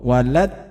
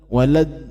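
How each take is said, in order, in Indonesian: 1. Huruf d di akhir terputus mendadak. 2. Huruf d di akhir bergetar sedikit di tenggorokan. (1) "Ah itu kan habis" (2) "seperti bunyi bergetar di tenggorokan"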